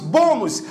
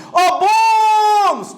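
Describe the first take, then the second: First: Said in the usual way. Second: High, stretched call on bônus; long drawn-out call. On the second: Shown as a demonstration. Teacher hollering an example word to the class, stretched call. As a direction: holler bônus, holding the stressed vowel.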